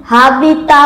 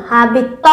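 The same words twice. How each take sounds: First: হাবি তা with a long open তা; wrong long a. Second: হাবি ত with a short clipped ত; right short vowel. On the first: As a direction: stretch তা like আকার. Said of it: "বলা যাবে না". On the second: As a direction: keep ত short, no আকার. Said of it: "বলতে হবে". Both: Shown as a demonstration.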